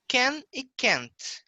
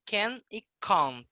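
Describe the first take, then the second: First: Can and can't slow, spaced apart; contrasting pronunciation. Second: Can and can't in a British accent. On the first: Teacher showing student an accent difference, slow contrasting pronunciation. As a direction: set "can" against "can't", slowly. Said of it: "eles vão falar can e can't". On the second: Teacher showing how they speak, British accent. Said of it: "Questão de sotaque deles". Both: Shown as a demonstration.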